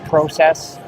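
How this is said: It is said with a Canadian pronunciation. "Canadians will say uh"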